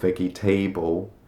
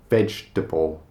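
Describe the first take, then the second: First: It is said with extra syllables sounded out. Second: It is said with syllables squeezed together. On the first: The speaker calls it wrong. "or vegetable" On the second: The speaker calls it right. "It's just vegetable"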